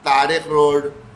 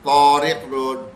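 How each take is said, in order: First: The first t is light and plain. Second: The first t is thick and heavy. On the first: This is the everyday Urdu way. "आराम से कह देते हैं।" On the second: This is the Arabic way. "तो अब मोटा करना पड़ेगा"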